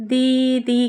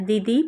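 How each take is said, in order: First: দিদি dragged out as deee-deee; wrongly lengthened vowels. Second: Said in the usual way. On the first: Shown as a demonstration. Teacher showing how nobody says দিদি, vowels dragged out. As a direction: overstretch both ই sounds in দিদি. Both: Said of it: "কেউ বলছি না".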